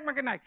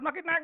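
First: "makin naik" repeated higher and louder; emphatic repeat. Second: Said in the usual way. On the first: Shown as a demonstration. Pastor urging the congregation, "makin naik" higher and louder.

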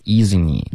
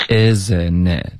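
First: "isn't it" with tense "ee" vowels, like "eezeenee"; vowels too high. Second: "Isn't it" with the tongue back lowered, relaxed short i; open short vowels. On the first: Retold or imitated. Teacher imitating the student's high vowels, "ee"-heavy "isn't it". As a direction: raise every vowel of "isn't it" to "ee". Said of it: "都发成了一". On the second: Shown as a demonstration. Teacher modelling the vowels, lax lowered "Isn't it". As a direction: keep "Isn't it" lax, never "ee". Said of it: "这三个e的音舌根都太高了".

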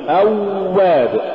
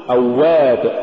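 First: أواب with a long droning w; awww-wab, exaggerated w in أواب; overdone softness. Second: أواب with a measured doubled w; moderately held w in أواب; balanced waw. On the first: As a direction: drag out the glide in أواب, pitched higher. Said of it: "ولا تقل". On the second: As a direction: say أواب without dragging the glide. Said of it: "قل". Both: Shown as a demonstration.

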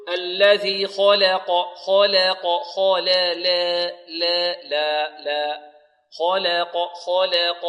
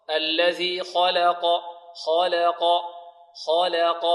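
First: Slow "خلق" with the la tilted toward "lay"; over-thinned lam. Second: Slow "خلق" with a medium, open "la" between heavy kha and qaf; correct light lam. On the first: Retold or imitated. Teacher imitates students' mistake, lam of "خلق" tilted to "leh". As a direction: exaggerate the fronted "leh" in خلق and لا, drawn out. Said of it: "أو مقللة أو فيها شيء من الإمالة". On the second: Shown as a demonstration. Teacher corrects students, "خلق" with medium light lam. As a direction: recite "خلق" khaw-la-qaw, lam light but not tilted. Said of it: "هذا خطأ".

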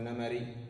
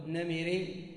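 First: نمري with short a after the m: "namarī"; fatha on the middle vowel. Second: نمري slowed, with short i: "namirī", rising; kasra on the middle vowel. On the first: Teacher answering his own question, نمري said "namarī". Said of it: "تفتح". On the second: Teacher asking which form is right, نمري said "namirī". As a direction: say نمري as na-mi-rī, questioningly. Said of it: "أم تفتح". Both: Shown as a demonstration.

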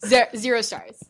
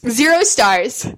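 First: Stammered verdict. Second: Mock verdict. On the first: Pretend. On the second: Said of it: "Just negative stars all around".

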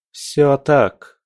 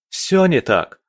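First: Твёрдый, высокий, категоричный ответ; отрежь, не допуская возражений; отрезала. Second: Высокое, горячее возражение; возрази с жаром; горячо. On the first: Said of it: "отрезала Алина". (категорично, повышенным тоном) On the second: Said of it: "горячо ответил Малик". (горячо, на повышенных тонах) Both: A narrator's reading.

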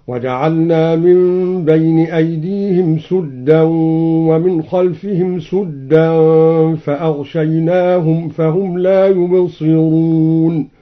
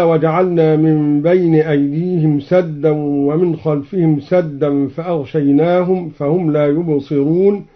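First: سدا said sudda, u on the s; sudda with damma. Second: Said in the usual way. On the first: Shown as a demonstration. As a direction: round the vowel of سدا, sudda. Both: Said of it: "قرأ الدوري بضم السين".

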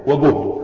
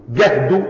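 First: وجهد said slowly as "wa-guhdu"; damma on the jim. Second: جهد said slowly as "gahdu"; fatha on the jim. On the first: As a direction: draw out وجهد with a rounded "u" vowel. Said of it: "وهو بالضم الجهد". (وجهد ببطء وبضم الجيم) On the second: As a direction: draw out جهد with an open "a" vowel. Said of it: "وبالفتح المشقة". (جهد ببطء وبفتح الجيم) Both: Shown as a demonstration.

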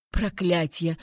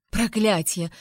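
First: Grumbled curse. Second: Understated, exasperated curse; angry exclamation. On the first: Mage reacts to the threat, grumbled curse. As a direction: grumble the curse under your breath. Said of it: "буркнул Элькас". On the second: Heroine confronts the mage, angry exclamation. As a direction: exclaim the oath in contained anger. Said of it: "воскликнула вне себя от злости". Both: A narrator's reading.

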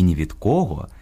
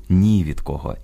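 First: «ні від кого» with the stress on «кого», кОго. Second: «ні від кого» with the stress on «ні». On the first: («ні від кого» — наголос на «кого») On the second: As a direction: stress NI, leave «кого» unstressed. («ні від кого» — наголос на «ні») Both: Shown as a demonstration. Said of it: "Наголос у сполуках слів".

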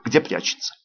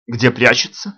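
First: "где прячется" with a firm falling tune; confirming statement. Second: ГДЕ ПРЯЧЕТСЯ with rising question tune; questioning echo. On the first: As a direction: confirm "прячется" as fact, voice dropping. She confirms the echoed question. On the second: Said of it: "повторил я её слова". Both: A narrator's reading.

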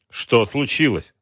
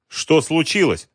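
First: Slow, drowsy half-awake question; sleepy voice. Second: Said in the usual way. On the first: A narrator's reading. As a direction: mumble it, barely awake. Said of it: "сонным голосом спросил Шпицын". (сонным голосом)

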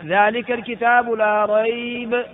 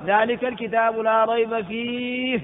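First: ذلك الكتاب لا ريب said slowly, ending with a full stop after ريب; stop after la rayb. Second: ذلك الكتاب لا ريب فيه said slowly, carrying on through فيه and stopping there; stop after fihi. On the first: Teacher shows students the stop after ريب, slow recitation. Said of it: "لا شك فيه، خلاص انتهى". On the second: Teacher shows students the stop on فيه, slow recitation. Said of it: "ولو وقفت". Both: Shown as a demonstration.

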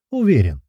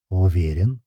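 First: УВЕРЕН as a question, high then falling. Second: УВЕРЕН low and level, slight lift at the end; confirming answer. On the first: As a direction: challenge with УВЕРЕН, loud high peak. Question echoed back as answer. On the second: Answer to the same word. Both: A narrator's reading.

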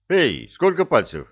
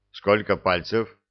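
First: Higher, louder, insistent call; louder insistent repeat. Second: Said in the usual way. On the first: Acted. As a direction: raise the voice to get through. Repeats question to unresponsive werewolf.

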